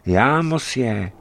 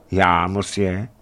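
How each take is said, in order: First: "já, mosje" high, then falling as a statement; "já, mosje" as a raised-pitch confirmation; falling answer. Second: "Já, mosje?" rising at the end as a question; "Já, mosje?" as an uncertain query. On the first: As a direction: answer "já, mosje" with a closing fall. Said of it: "odpovídá strašidlo francouzsky". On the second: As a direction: ask "Já, mosje?" with a lifted ending. Startled stranger answers a challenge. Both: A narrator's reading.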